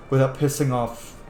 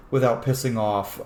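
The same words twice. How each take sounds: The two takes are said the same way.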